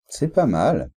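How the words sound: The tone sounds appreciative and positive. It is starting to be good. "ça va être assez positif"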